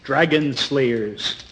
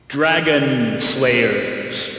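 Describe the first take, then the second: First: It is said plainly, without dramatic tone. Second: It is said with a dramatic, announcer-like tone.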